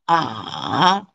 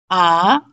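First: The syllable is said with the third tone. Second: The syllable is said with the second tone. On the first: "third tone" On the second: "second tone"

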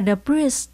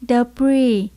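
First: The word ends with an audible s sound. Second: The word ends without any s sound. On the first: The speaker calls it wrong. "Không phải là debris, debris, không phải nha các bạn" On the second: The speaker calls it right. "mình chỉ đọc là debris, không có chữ S nhé"

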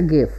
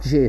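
First: The word begins with a hard G sound. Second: The word begins with a soft J sound. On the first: The speaker calls it right. "Like a gift" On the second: The speaker calls it wrong. "not GIF"

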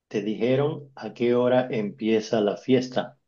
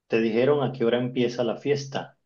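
First: It is said more slowly. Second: It is said at normal speed.

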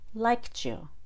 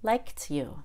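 First: The T and Y blend into a CH sound. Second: The T is released with a puff of air. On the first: "First, I'll do the CH" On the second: "and then the aspirated T"

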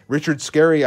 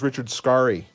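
First: The surname is said the common, familiar way. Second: The surname is said an unfamiliar, different way. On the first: The speaker calls it wrong. "We all say it wrong" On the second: The speaker calls it right. "I think, is Richard Scarry"

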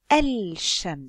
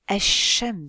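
First: The l of the article is clearly pronounced. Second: The l is silent and the s doubled. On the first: The speaker calls it wrong. "je ne vais pas dire el-shams" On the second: The speaker calls it right. "Je vais dire ash-shams"

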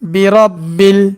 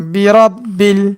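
The two takes are said the same way.

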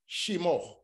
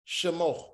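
The two takes are said the same way.

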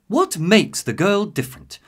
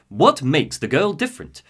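First: It is said in a soft, therapy-like voice. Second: It is said in a stern, assertive voice.

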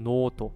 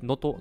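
First: The first vowel is drawn out long. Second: The first vowel is short. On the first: The speaker calls it right. "mit einem lang, langgezogenen O" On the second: The speaker calls it wrong. "nicht Noto"

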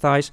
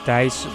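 First: The name has an anglicized, non-Dutch pronunciation. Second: The name has its native Dutch pronunciation. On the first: This is how most people mispronounce it. The speaker calls it wrong. "But everyone pronounces it as Thijs" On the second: This is the name's real pronunciation. The speaker calls it right. "Actually, my name is Thijs"

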